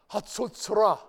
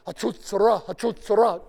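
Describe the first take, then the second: First: Hatzotzra said clearly as hah-tsote-tsuh-rah; Hebrew pronunciation. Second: Hatzotzra blared loud and high like a trumpet; trumpet call. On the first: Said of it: "Everyone say Hatzotzra". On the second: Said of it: "pretend to be playing the trumpet". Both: Shown as a demonstration.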